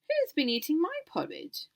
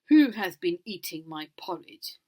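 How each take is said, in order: First: It is said in a medium-sized voice. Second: It is said in a big, loud voice.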